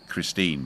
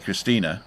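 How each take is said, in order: First: The name ends without a final vowel sound. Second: The name ends with a pronounced vowel sound. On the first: "the English way" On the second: "the Germans pronounce the E on the end"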